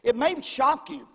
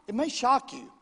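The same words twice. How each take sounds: The two takes are said the same way.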